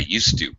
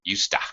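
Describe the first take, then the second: First: Both words are said fully and separately. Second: The words blend into one short word, yusta.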